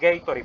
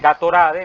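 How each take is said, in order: First: It is pronounced the English way. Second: It is pronounced as spelled, Spanish style. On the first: "como se pronuncian en inglés" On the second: "si alguien lo pronuncia como está escrito"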